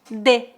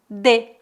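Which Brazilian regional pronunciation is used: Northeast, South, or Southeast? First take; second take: South; South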